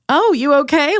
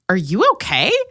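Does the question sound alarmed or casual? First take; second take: casual; alarmed. First: It sounds light and casual. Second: It sounds alarmed and worried.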